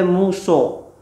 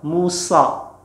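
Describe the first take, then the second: First: The final vowel is rounded with lips pushed forward. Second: The final vowel is open with lips not rounded. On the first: The speaker calls it wrong. "tidak boleh muso" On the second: The speaker calls it right. "So tidak maju bibirnya ya. Ujung lidahnya diturunkan ke gigi di bawah"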